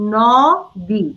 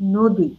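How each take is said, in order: First: The first vowel is an open 'aw' sound. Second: The first vowel is a closed 'o' sound. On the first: "আমি লিখেছি ন-দি" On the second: "কিন্তু আমি কিন্তু উচ্চারণ করি নদী।"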